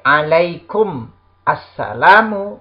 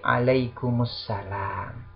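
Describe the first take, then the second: First: Alaikum and assalamu are said as separate words. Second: Alaikum joins the next word with an added u vowel.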